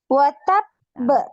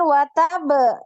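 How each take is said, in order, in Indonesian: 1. Suara naik pada suku kata terakhir. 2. Suara tetap datar pada suku kata terakhir.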